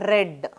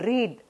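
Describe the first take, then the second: First: The vowel is short, like 'red'. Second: The vowel is long, like 'reed'. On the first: The action happened in the past. "When I say in past tense, I used to say read" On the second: The action is a present habit. "when I use this read as a simple present tense, I am using read"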